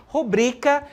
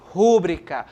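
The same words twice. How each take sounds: First: "rubrica" stressed on BRI; stress on middle syllable. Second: "rúbrica" stressed on RÚ; stress on first syllable. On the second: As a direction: say "rúbrica" as RÚ-bri-ca. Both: Shown as a demonstration. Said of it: "Devemos pronunciar rubrica e não rúbrica".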